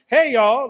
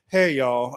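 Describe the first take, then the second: First: It is said with high energy. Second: It is said with low energy.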